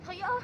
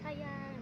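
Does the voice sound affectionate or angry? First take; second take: angry; affectionate. First: The word is said in an angry tone. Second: The word is said in an affectionate tone. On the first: The speaker is upset about a broken favorite plate. "vokalnya berubah, sayang gitu, marah kan" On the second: The speaker is pleased after receiving a gift. "sayangnya ini berubah jadi sayang gitu"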